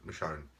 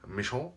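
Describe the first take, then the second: First: The name is said with a plain English accent. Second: The name is said with a French accent. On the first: "there you go" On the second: "I'm saying that with a uh, French accent for some reason"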